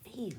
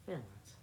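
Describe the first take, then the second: First: "Feelings" as "fee-lings"; standard pronunciation. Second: "Feelings" as low, soft "fillins"; own "fillins" pronunciation. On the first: Showing the proper way, "fee-lings". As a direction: say "Feelings" with long ee and full ng. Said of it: "That's how you really say it?". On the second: Showing their own way, "Feelings" as "fillins". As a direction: drop the g and shorten the ee in "Feelings". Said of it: "That's what I said". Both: Shown as a demonstration.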